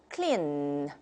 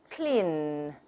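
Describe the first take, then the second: The two takes are said the same way.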